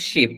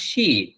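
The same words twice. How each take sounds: First: "শিপ" with a short i, as in ship; short vowel. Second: "শিপ" with a long ee, as in sheep; drawn-out vowel. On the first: Teacher contrasts ship with sheep, short vowel in "শিপ". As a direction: say "শিপ" quickly closed, no drawn vowel. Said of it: "এইটার উচ্চারণ". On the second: Teacher contrasts sheep with ship, drawn-out vowel in "শিপ". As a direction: stretch the vowel of "শিপ" and let it fall. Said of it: "টান হবে". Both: Shown as a demonstration.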